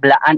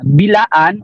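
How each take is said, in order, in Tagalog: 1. Ang unang pantig ay iisang kumpol, 'bla'. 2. May dagdag na patinig na naghihiwalay sa 'b' at 'l'. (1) "Blaan ang pagbigkas" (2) "ito ay isang diskriminasyon para sa amin"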